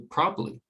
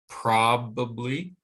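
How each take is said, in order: First: The second syllable is dropped entirely. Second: The second syllable is fully pronounced. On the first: "it can be reduced to probably. And the second syllable is gone again" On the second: "stressed on the first syllable"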